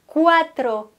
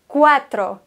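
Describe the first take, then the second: The two takes are said the same way.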